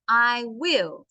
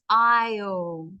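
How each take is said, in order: First: It is said as two separate full words. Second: It is said as one short contracted syllable. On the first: "Or you could say, I will" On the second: "Together it becomes I'll"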